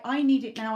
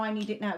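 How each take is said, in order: First: NEED pushed out, louder, imitating a desperate client; mock a client insisting on "need"; louder urgent demand. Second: Said in the usual way. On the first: Psychic mocking clients who want results now, loudly insistent. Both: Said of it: "we are swamped by".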